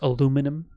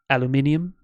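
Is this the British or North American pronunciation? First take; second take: North American; British. First: It is said with four syllables, North American style. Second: It is said with five syllables, British style. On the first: This is how Canadians say it. "we pronounce aluminum as aluminum" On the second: This is how it is said in the UK. "and not aluminium"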